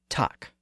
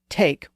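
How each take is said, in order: First: It has an older, different vowel sound. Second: It has the modern English vowel sound. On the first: This is how the word sounded before the vowel shift. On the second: This is how the word sounds today.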